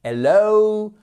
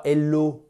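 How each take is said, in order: First: "hello" high, loud, long oh-oo glide; correct English HELLO. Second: "hello" as "ello", pure short o, no h; wrong French HELLO. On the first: Teacher correcting learners, "hello" high with a long diphthong. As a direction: send "hello" up and stretch the final o. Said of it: "et c'est pas hello". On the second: Teacher showing the mistake, "hello" the French way. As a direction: drop the h and glide of "hello". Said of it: "c'est pas hello". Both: Shown as a demonstration.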